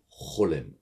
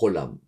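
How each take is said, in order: First: The last vowel sounds like 'e'. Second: The last vowel sounds like 'a'. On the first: The speaker calls it right. "il faut dire Cholem" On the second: The speaker calls it wrong. "il ne faut pas dire Cholam"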